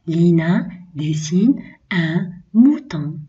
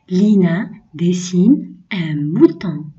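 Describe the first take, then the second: First: Said in the usual way. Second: Slow "Lina dessine un mouton" leaning on "Lina"; slow reading. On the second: Shown as a demonstration. Teacher reads the second sentence slowly to children. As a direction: read it slowly for pupils. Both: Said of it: "Je lis les phrases".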